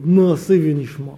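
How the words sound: It is said in a Russian accent.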